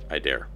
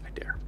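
First: Said in the usual way. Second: Breathless whisper of a dare; whispered echo of the line. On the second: Shown as a demonstration. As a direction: hush it to nothing.

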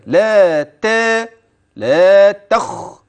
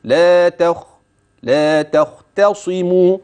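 First: لا تا and لا تخ dragged out with forced emphasis on ت and خ; overdone articulation. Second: لا تختصموا chanted evenly with light ت and an easy heavy خ; clear, unforced articulation. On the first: Teacher showing the wrong, strained way to say لا تخ, exaggerated. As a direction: labour each syllable of لا تخ, overstretched and effortful. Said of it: "ليس هكذا". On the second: Teacher showing the correct, unforced way to recite لا تختصموا. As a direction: flow through لا تخ and لا تختصموا without straining. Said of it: "واضحا جليا بلا تكلف". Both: Shown as a demonstration.

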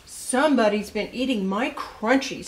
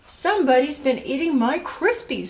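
First: Lightly voiced storybook father, indignant; a touch of papa's complaint, near the reader's own pitch; Mister Blair. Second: Lightly voiced storybook mother, higher and louder; a higher, mildly indignant mama's complaint; Missus Blair. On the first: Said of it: "said Mister Blair". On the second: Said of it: "said Missus Blair". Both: A narrator's reading.

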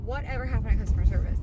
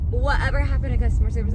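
First: Said in the usual way. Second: Fast, louder, stressing Whatever; louder exasperated repeat. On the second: Real, not acted. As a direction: hammer the question home in disbelief.

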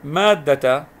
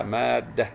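First: مادة read "maaddata", long a, voweled t; louder مادة with ending "ta" sounded; full ending. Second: مادة read "maaddah" with silent t; pausal ending. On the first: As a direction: stretch the first a of مادة and finish on "ta". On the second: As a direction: stop on h at the end of مادة. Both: Shown as a demonstration. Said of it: "لو سكنتها مادة".

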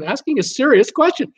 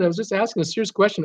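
First: "serious" punched higher than the rest; stress on serious. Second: Said in the usual way. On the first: Real, not acted. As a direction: hit "serious" hard in protest. Repeats his words for emphasis.

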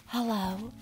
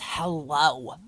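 First: Small, soft, higher hello; mock normal villager. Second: Slow, drawn-out mimicked "hello"; mocking hello. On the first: Player imitates normal villagers' greeting, soft and higher. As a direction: imitate a meek little greeting. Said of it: "They're just like". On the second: Player mocks how Celia greets people, drawn-out hello. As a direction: stretch the word in disbelief. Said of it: "Like, who says hello?".

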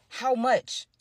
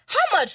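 First: Said in the usual way. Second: Insistent. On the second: Retold or imitated. Drunk woman pressing at airport.

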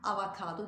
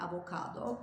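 First: "Avokado" with a after the v; wrong pronunciation. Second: "avokado" with o after the v; correct pronunciation. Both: Shown as a demonstration. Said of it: "Avokado değil".

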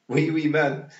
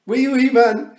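First: Put-on loud, raised toddler chant; gleeful shout. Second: Put-on very high, full-blast toddler shriek; louder gleeful shout. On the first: Wentworth delighted by the tiny man, gleeful shout. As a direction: chant it loudly with childish glee. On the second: Wentworth delighted by the tiny man, gleeful full-volume shout. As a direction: bellow the chant in childish delight. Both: A narrator's reading. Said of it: "shouted Wentworth gleefully".

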